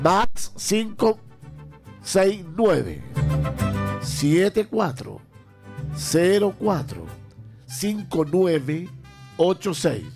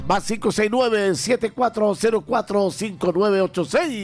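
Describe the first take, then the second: First: The number is read more slowly. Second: The number is read at normal speed.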